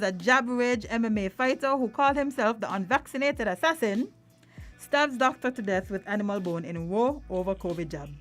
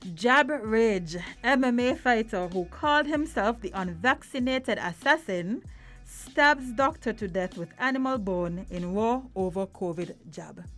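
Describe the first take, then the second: First: It is read at normal speed. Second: It is read slowly.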